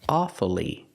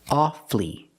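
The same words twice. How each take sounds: First: The word is said with three syllables. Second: The word is said with two syllables. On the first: "pronounce it with three syllables, pronouncing the U, following the rule" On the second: "Two syllables, the U is silent"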